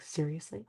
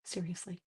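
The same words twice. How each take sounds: First: Softer, rising mock-incredulous question; disbelieving son. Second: Much softer, flat falling deadpan; deadpan mom. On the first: Son asking his mom about the doll, disbelieving. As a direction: ask in lightly hammed disbelief. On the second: Retold or imitated. Mom answering her son, deadpan. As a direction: answer dryly, no give.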